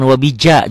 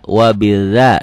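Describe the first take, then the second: First: The middle consonant is a 'j' sound. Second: The middle consonant is a soft 'dz' sound. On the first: The speaker calls it wrong. "jangan wabija juga jangan" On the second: The speaker calls it right. "antara rapuh dan keras"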